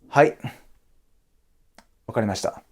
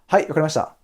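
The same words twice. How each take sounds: First: There is a pause between the words. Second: It is said smoothly without a pause.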